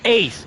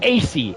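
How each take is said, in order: First: The name is said as one word. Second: The name is said as two separate letters. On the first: The speaker calls it right. "It's Ace" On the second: The speaker calls it wrong.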